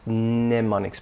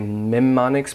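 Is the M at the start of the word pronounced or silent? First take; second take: silent; pronounced. First: The word begins with an N sound. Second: The word begins with an M sound. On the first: The speaker calls it right. "the more common or standard pronunciation is mnemonics. Mnemonics, pronounce the N" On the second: The speaker calls it wrong. "some people might say mnemonics"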